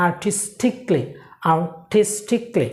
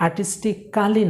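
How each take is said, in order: First: আর্টিস্টিকলি in four syllables, ar-tis-tik-lee; correct pronunciation. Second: আর্টিস্টিক্যালি with the A sounded, ar-tis-ti-kaa-lee; rejected pronunciation. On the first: Teacher correcting the mistake for learners, আর্টিস্টিকলি with silent A. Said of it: "আর্টিস্টিক্যালি না". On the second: Teacher quoting what not to say, আর্টিস্টিক্যালি with "kaa-lee". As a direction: say আর্টিস্টিক্যালি with an extra "kaa" syllable. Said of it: "না". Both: Shown as a demonstration.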